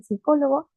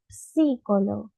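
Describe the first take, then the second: First: "psicólogo" said as "sicólogo" with the P dropped; teacher demo of psicólogo without the P; silent P. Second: "psicólogo" said with a light P before the S; teacher demo of psicólogo with the P; P sounded. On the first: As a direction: start "psicólogo" straight on the S. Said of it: "Empiezan desde la S, dicen". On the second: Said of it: "otros dicen psicólogo". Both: Shown as a demonstration.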